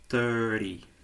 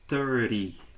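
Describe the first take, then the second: First: The middle T is dropped, leaving an R sound. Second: The middle T is dropped, leaving an R sound.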